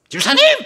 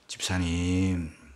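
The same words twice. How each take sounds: First: The voice rises at the end. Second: The voice falls at the end.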